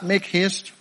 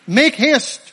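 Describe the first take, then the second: First: Said in the usual way. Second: Loud, high, urgent command; urgent call. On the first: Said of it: "Why did he say that". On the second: Acted. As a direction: shout it to hurry someone along. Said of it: "It's an urgent call".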